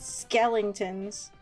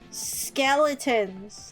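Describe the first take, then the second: First: The middle has an added 'ling' sound. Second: The middle is a short 'luh' sound. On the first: The speaker calls it wrong. "everyone say Skellington" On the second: The speaker calls it right. "the right word"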